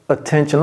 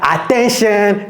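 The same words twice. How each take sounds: First: The first vowel is a weak, neutral schwa. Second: The first vowel is a full, clear vowel. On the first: The speaker calls it right. "c'est attention. L'anglais est doux" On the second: The speaker calls it wrong. "Ce n'est pas attention"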